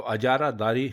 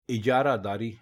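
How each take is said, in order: First: अजारादारी starting with a, a-jaa-raa-daa-ri; common wrong form. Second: इजारादारी starting with i, i-jaa-raa-daa-ri; correct pronunciation. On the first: Teacher setting the wrong form against the right one: अजारादारी as a-jaa-raa-daa-ri. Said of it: "अजारादारी गलत है". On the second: Teacher setting the right form against the wrong one: इजारादारी as i-jaa-raa-daa-ri. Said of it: "इजारादारी दुरुस्त है". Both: Shown as a demonstration.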